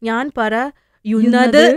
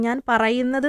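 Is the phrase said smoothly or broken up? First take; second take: broken; smooth. First: The verb is broken by a pause midway. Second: The verb is said smoothly as one unit. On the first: A non-native speaker does not know where the word boundaries are. The speaker calls it wrong. "അവർ പറയുന്നത് വെച്ച് കഴിഞ്ഞാൽ" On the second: A native speaker knows it is one word. The speaker calls it right. "ഒരൊറ്റ വേർഡാന്ന് എനിക്കറിയാം"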